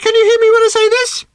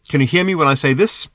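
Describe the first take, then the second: First: It is spoken at a much higher pitch. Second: It is spoken at an ordinary pitch.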